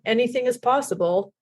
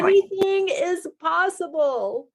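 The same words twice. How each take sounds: First: It is said in a dark, dreary tone. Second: It is said in an enthusiastic, bright tone. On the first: The possibilities feel threatening or hopeless. "sound really dark and dreary" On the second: The possibilities feel exciting and hopeful. "the enthusiasm of it"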